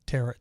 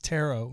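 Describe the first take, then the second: First: The word rhymes with parrot. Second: The word does not rhyme with parrot. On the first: The speaker calls it wrong. "I was saying tarot like parrot" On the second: The speaker calls it right. "So it's tarot"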